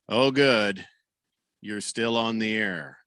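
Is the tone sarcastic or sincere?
sarcastic. It sounds sarcastic, like a heckler's jab.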